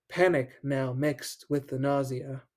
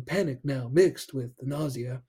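First: Said in the usual way. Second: Lightly voiced halting Shatner read of "Panic now mixed with the nausea."; light Shatner impression; William Shatner. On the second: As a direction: pause dramatically between words like Shatner. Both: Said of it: "William Shatner kind of phrasing".

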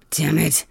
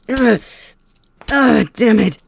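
First: Said in the usual way. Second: Loud, higher cry forced through the pain. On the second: Acted. Whipped prisoner cursing his captor, pained cry.

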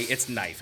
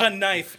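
First: Said in the usual way. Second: "knife" said as "kuh-nife"; sounded K. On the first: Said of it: "just take off the K". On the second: Shown as a demonstration. Ranting about English spelling, "knife" said with its K sounded as "kuh-nife". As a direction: voice the silent K in "knife". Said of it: "is a reason to just take off the K".

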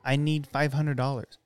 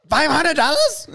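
First: Said in the usual way. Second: Higher and louder, questioning; high squeaky voice. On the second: Retold or imitated. Quoting movie line, high.

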